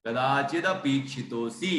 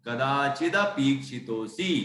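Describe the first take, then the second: No difference in how they are said.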